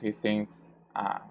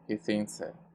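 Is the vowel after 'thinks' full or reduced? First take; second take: full; reduced. First: The final vowel is said full and clear. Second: The final vowel is said short and reduced. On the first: The speaker calls it wrong. "We don't pronounce he thinks ah" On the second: The speaker calls it right. "we reduce this vowel here"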